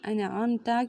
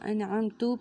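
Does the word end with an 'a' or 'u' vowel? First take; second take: a; u. First: The word ends with an 'a' vowel. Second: The word ends with a 'u' vowel. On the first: The speaker calls it right. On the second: The speaker calls it wrong.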